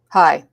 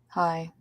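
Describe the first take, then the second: First: The greeting sounds angry and hostile. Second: The greeting sounds troubled and upset. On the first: The speaker is angry at the listener. "why are you angry at me?" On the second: Something is wrong with the speaker. "clearly you know something's wrong"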